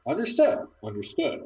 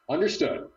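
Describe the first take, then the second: First: Rising high pitch. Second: Said in the usual way. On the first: Acted. Trying voices for voice command.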